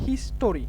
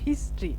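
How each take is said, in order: First: An extra vowel sounds between the t and r. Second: The t and r join with no vowel between. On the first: The speaker calls it wrong. "আমরা বলি হিস্টোরি, এটা কিন্তু ভুল।" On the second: The speaker calls it right. "হিস্ট্রি উচ্চারণ হবে হিস্ট্রি।"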